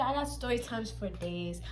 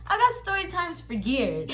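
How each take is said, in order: First: Slow, soft aside; quiet, unhurried claim; understated boast. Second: "years" topping it, higher-pitched; raised-pitch, fuller-voiced exaggeration; emphatic boast. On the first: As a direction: say it low-key and drawn out. First of escalating repeated boast. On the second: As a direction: lift the voice to top "days" with "years". Tops the first boast. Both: Real, not acted.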